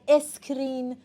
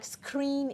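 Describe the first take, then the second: First: An extra vowel is added before the s. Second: It starts directly with the s cluster. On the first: The speaker calls it wrong. "it's not a screen" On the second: The speaker calls it right. "It's like screen"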